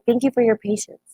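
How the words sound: It sounds warm and sincere. The listener's frustration is understood and appreciated. The speaker calls it right. "I wasn't being condescending"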